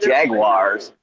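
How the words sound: It is said in an American accent. This is how people here say it. "in this country, we, we call those cars Jaguars"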